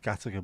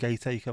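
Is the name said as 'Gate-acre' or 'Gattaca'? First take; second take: Gattaca; Gate-acre. First: It is said as 'Gattaca', unlike the spelling. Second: It is said as 'Gate-acre', like the spelling. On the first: The speaker calls it right. "Makes no sense that it's Gattaca, but it just is" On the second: The speaker calls it wrong. "So many people call it Gateacre. It's not fucking Gateacre"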